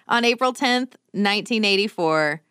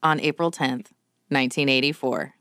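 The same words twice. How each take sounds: First: It is said in an ordinary, neutral tone. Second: It is said in a grave, somber tone.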